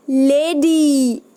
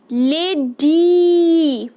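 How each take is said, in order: First: लेडी slow, drawn out; slow demo word. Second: लेडी very slow and louder with a long final ee; slower, louder demo word. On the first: Teacher reads a picture word to children, slow. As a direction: sound out लेडी for the kids. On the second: Teacher stresses the ending for children, very slow and louder. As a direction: stretch लेडी right out and lean on the ee. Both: Shown as a demonstration. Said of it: "कौन सी sound आ रही है आपके पीछे".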